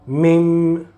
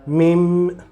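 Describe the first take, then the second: Both takes have the same delivery.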